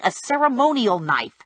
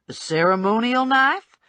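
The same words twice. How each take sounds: First: Said in the usual way. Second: KNIFE rising into a question; questioning echo. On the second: A narrator's reading. Bounty hunter queries the little man's excuse, rising questioning echo on KNIFE. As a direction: query it back, pitch climbing through to KNIFE.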